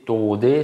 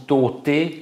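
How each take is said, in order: First: The middle consonant is a voiced d. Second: The middle consonant is a voiceless t. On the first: The speaker calls it right. "il faut dire tout simplement taudé avec un D" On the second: The speaker calls it wrong. "si on dit tauté, là ça va pas"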